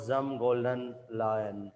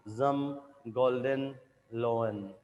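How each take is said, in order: First: Slow "Zum Golden Lion", last word as English lion; mistaken phrase. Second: Slow "Zum Golden Loen", with "lo-en" for the last word; corrected German phrase. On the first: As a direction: say "Lion" as "lie-un". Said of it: "not Zum Golden Lion". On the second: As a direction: say "Loen" with an o, not like lion. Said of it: "whole phrase will therefore read". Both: Acted.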